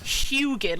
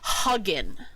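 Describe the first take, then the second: First: The first syllable sounds like 'hyoo'. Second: The first syllable sounds like 'huh'. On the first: "like Huey. Or Houston" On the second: "I'm gonna be hugging you later"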